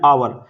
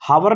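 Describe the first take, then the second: First: The word begins with a vowel sound. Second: The word begins with an h sound. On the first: The speaker calls it right. "इसको बोल रहे हैं आवर" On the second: The speaker calls it wrong. "हावर नहीं बोल रहे इसको हम, एच silent है"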